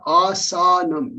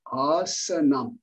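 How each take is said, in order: First: "asanam" with the middle vowel as a full open a, a-sa-nam; wrong Sanskrit pronunciation. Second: "asanam" slow, middle vowel short and neutral, a-sə-nam; correct Sanskrit pronunciation. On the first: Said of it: "It's not asanam". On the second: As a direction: say "asanam" properly and slowly, middle vowel reduced. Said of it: "no, it's asanam". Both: Shown as a demonstration.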